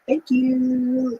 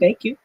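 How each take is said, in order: First: It is said in a posh, queen-like voice. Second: It is said in a plain, natural voice.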